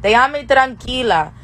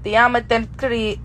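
First: "Déjame tranquila" said whole, higher pitched; practiced Spanish phrase. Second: "Déjame tranqui-" slow, breaking off before the end; halting Spanish attempt. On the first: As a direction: deliver "Déjame tranquila" complete, as just learned. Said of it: "How do I tell these niggas". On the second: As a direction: try "Déjame tranqui-" slowly and give up mid-word. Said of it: "I don't got it". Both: Shown as a demonstration.

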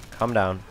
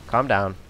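Both takes have the same delivery.

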